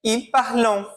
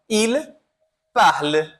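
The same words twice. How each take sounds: First: "Ils parlent" with the ENT read as a nasal "on", parlon; teacher voicing the common learner mistake, "Ils parlent" as parlon; wrong reading. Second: "parle" ending on the L, silent ENT, parl; correct French. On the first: Teacher showing students the wrong nasal ending of "Ils parlent". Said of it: "como você leria isso daqui, segundo essa regra?". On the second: Teacher demonstrating the right silent ending, "parle" stopping on the L. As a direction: stop right at the L of "parle", nothing after. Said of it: "Como é que a gente vai pronunciar?".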